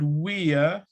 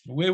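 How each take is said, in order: First: It is said as two full, stressed words. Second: It is said as one short contracted syllable. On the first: The speaker calls it wrong. "not we are, We don't stress function words" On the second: The speaker calls it right. "We're waiting"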